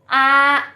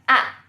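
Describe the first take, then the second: First: The pitch stays high and level. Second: The pitch drops sharply from high to low. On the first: "a kalau satu" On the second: "yang keempat bacanya a, a. Karena disentak begini"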